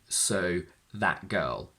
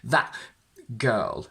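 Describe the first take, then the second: First: The glottal stop in 'that' is light and brief. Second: The glottal stop in 'that' is strong and heavy. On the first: The speaker calls it right. "not more than that" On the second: The speaker calls it wrong. "that would be too much"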